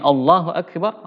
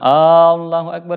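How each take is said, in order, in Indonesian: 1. Vokal pertamanya dibaca pendek. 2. Vokal pertamanya dipanjangkan. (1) "Jadi seharusnya" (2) "kalau dipanjangkan uh, hamzanya dibilang"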